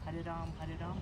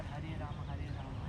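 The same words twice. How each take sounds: First: "Ram" ending on the m; Ram as one syllable. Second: "Rama" as two syllables; Rama with final vowel. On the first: Student asking teacher about the chant, Ram as one syllable. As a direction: say "Ram" with no final vowel. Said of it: "is there any difference between". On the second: Student asking teacher about the chant, Rama with final vowel. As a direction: add a short a to end "Rama". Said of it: "Is there any difference or". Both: Shown as a demonstration.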